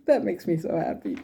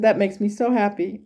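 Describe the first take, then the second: First: Said through a real laugh; giggling with happy relief; laughing happily. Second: Said in the usual way. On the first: Real, not acted. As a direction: laugh the words out with joy. Laughing at grandmother's good news.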